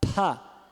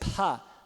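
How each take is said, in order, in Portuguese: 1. O p é solto com sopro de ar. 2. O p é solto com sopro de ar.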